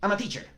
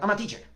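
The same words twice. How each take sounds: Both takes have the same delivery.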